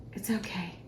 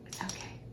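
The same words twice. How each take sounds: First: Said in the usual way. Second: Breathy whisper, almost no voice; whispered reassurance. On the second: Real, not acted. To herself while guessing the yeast, a whispered reassurance. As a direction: whisper it to yourself to calm down.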